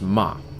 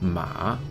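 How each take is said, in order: First: The pitch drops sharply from high. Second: The pitch dips low then rises. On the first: It means scold. "The dropping tone is uh, the fourth tone" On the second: It means horse. "Third tone, the dipping tone"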